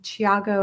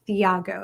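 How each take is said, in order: First: The name begins with a plain T sound. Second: The name begins with a TH sound. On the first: The speaker calls it right. "I think that's how you say his name" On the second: The speaker calls it wrong. "and not"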